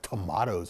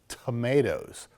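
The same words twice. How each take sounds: First: The word is said with a British pronunciation. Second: The word is said with an American pronunciation.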